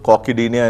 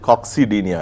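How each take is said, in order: First: It is said without a 'ks' sound. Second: It is said with a 'ks' sound. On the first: "రెండు విధంగా pronounce చేసుకోవచ్చు" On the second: "కాక్సిడీనియా is more appropriate"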